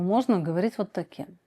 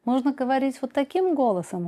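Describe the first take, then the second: First: Dropped back down to a low register; lower voice. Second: Pitched up, higher than usual. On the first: Psychologist showing the other voice option, lower voice. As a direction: say it lower, settling down at the end. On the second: Psychologist showing that a voice can be changed, higher voice. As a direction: lift the whole phrase into a higher register. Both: Shown as a demonstration.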